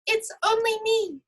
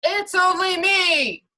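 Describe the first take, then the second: First: Much higher, tiny billy goat voice; little goat voice. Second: Much louder, higher, slow big billy goat; even bigger goat voice. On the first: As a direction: squeak it out like the smallest goat. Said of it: "in his not very loud little voice". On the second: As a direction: boom it out bigger than the troll. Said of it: "replied in an even bigger voice". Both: Acted.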